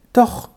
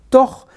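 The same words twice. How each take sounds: First: Said in the usual way. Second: Second doch, higher and louder; insistent repeat. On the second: A narrator's reading. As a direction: push the repeated doch harder. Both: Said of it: "antwortete der Junge ein wenig unsicher".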